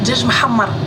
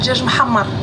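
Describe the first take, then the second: First: The second word has a breathy h consonant. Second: The same.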